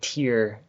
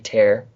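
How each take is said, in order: First: The vowel rhymes with 'ear'. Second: The vowel rhymes with 'air'. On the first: The speaker calls it wrong. "I was pronouncing it tier because I'm an idiot" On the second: The speaker calls it right. "It's supposed to be tear"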